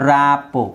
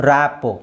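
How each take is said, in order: No difference in how they are said.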